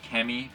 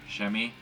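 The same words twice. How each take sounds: First: The word starts with a hard k sound. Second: The word starts with a soft sh sound. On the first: The speaker calls it wrong. "looks like" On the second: The speaker calls it right. "but might be"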